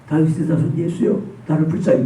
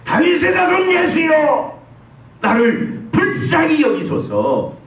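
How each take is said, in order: First: It is said quietly, without force. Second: It is shouted loudly with full force.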